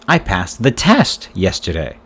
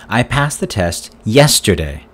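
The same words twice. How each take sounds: First: The word 'test' carries the main stress. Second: The word 'yesterday' carries the main stress. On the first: It says what was passed. "What did you pass yesterday?" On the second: It says when the test was passed. "When did you pass the test?"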